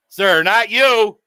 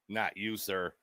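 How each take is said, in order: First: Drawn out and louder, leaning on you; slow, louder reassurance. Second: Soft aside. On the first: Calling out to the man he is roasting. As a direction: say it up front, slow and loud. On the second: Quietly reassuring the man he is roasting. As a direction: drop to a murmur for not you, sir. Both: Pretend.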